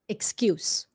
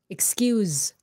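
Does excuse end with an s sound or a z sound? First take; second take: s; z. First: The word ends with an s sound. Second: The word ends with a z sound. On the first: It is a noun meaning a reason. "S sound at the end" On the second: It is a verb. "Z sound"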